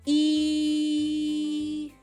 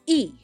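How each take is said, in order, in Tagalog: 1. Mahaba ang pagbigkas sa patinig. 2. Maikli ang pagbigkas sa patinig.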